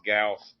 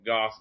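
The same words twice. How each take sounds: First: Gauss with a gliding "ow" vowel; second variant of Gauss. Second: Gauss with an open "ah" vowel, like "Goss"; first variant of Gauss. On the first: Guest liking the double play, Gauss rhyming with house. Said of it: "really enunciate the guy". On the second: Guest liking the double play, open-vowel Gauss. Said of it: "the G A would get me". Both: Shown as a demonstration.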